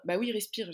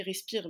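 First: Mimicking struggling breath; wheezy voice. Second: Breathless wheezing take; wheezy voice. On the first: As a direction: gasp out the word like you can't breathe. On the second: Retold or imitated. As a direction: wheeze respire with no air left. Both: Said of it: "j'arrive pas à respirer".

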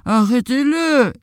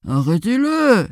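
First: Higher, drawn-out piglet call; piglet's cry. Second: High, drawn-out cow call; cow's cry. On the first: Little pig cries to the farmer for help, high call. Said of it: "cria le petit cochon". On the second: Cow cries to the farmer for help, drawn-out call. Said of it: "cria la vache". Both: A narrator's reading.

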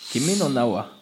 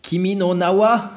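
First: Said in the usual way. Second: Put-on Japanese title in a German accent; clipped German-accented Japanese. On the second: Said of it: "le japonais avec un accent allemand".

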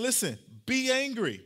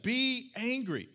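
First: Said in the usual way. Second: "Be angry" drawn out slowly, each word weighed; slow down and lean on "Be angry"; preacher's slow, weighty restatement of "Be angry"; slow emphatic repeat. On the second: Shown as a demonstration. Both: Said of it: "There's nothing wrong with that".

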